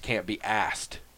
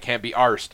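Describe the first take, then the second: First: It sounds British, with no r in arsed. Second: It is a hybrid, with an r in arsed.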